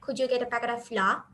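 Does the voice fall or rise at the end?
falls. The voice stays flat with no final rise. It is just a statement. The speaker calls it wrong. "if you go on in a plain voice tone like"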